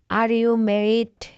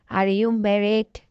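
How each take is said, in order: Both takes have the same delivery.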